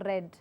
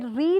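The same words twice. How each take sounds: First: The vowel is short, like 'red'. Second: The vowel is long, like 'reed'. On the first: The action happened before. "when I say it in past tense" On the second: The action happens now. "in the present tense"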